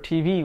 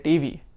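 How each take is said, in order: First: The t is plain, tongue not curled back. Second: The t is retroflex, tongue curled back. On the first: "For T V" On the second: "we'll say T V"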